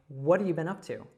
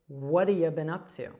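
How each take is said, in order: First: The words are run together with reduced sounds. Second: The same.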